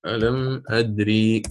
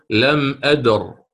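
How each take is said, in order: First: لم أدري said slowly with the final ya kept; slow لم أدري, ya pronounced; full form with final ya. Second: لم أدر slow, stopping on a silent r; slow pausal لم أدر; pausal form without ya. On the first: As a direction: stretch out أدري ending on a long ee. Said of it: "أليس أصلها هكذا". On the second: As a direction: cut أدر short on the r, no final vowel. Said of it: "ستقرأ تقول". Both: Shown as a demonstration.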